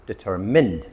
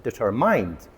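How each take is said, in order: First: "determined" ending -mund, short i; proper "determined", no mind sound; correct pronunciation. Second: "determined" with -mind, like the word mind; wrong "determined", deter-MIND; wrong pronunciation. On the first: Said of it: "it's actually". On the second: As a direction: mispronounce "determined" ending in mind. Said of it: "a lot of people pronounce it". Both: Shown as a demonstration.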